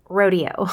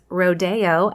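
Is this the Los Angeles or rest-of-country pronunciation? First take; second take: rest-of-country; Los Angeles. First: It is said the rest-of-country way. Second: It is said the Los Angeles way.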